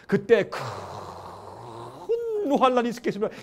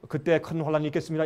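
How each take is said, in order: First: It is read with strong, heartfelt emphasis. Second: It is read flatly, without special emphasis.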